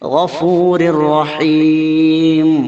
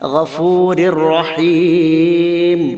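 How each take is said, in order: Both takes have the same delivery.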